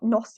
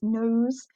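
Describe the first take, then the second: First: "nos" said with a short o, like "noss"; wrong short vowel. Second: "nose" said with a long o, magic E. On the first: Teacher showing the wrong reading of nose, "nos" with a short o. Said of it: "It's not nos". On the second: Teacher showing the right reading of nose, long o in "nose". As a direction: stretch the o in "nose" as the correct version. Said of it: "it's nose". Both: Shown as a demonstration.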